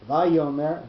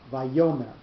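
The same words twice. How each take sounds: First: The stress falls on a syllable other than the middle. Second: The stress falls on the middle syllable. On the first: The speaker calls it wrong. "it's not vayomer" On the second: The speaker calls it right. "it's vayomer. So the yo, that cell, that syllable is the one that's going to have the accent"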